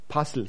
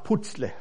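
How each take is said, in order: First: The middle consonant is a soft 'z' sound. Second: The middle consonant is a sharp 'ts' sound. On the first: This is the speaker's own preferred way of saying it. "Puzzle, sage ich gerne" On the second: This is how some other people say it. "Manche sagen auch Putzle"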